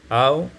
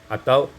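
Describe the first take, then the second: Both takes have the same delivery.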